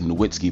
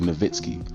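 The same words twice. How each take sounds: First: The letter W is said as a W sound. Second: The letter W is said as a V sound. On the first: This is how people commonly say it. The speaker calls it wrong. "People say Nowitzki" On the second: This is how the name really sounds. The speaker calls it right. "but it's really Nowitzki"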